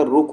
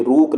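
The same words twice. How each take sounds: First: रुक with a quick, short vowel. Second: रूक with a stretched "rooo" vowel; long U. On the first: Teacher giving the correct form, short U in रुक. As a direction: keep the vowel in रुक brief. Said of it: "रुक होता है". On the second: Teacher showing the wrong form, long U in रूक. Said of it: "ये रूक नहीं होता". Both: Shown as a demonstration.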